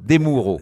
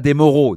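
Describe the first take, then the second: First: The name is said with Italian pronunciation. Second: The name is said with French pronunciation. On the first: The speaker calls it right. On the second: The speaker calls it wrong.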